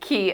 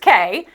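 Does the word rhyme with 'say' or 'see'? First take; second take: see; say. First: The word rhymes with 'see'. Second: The word rhymes with 'say'.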